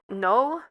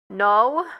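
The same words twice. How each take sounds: First: It is said quietly. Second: It is said loudly.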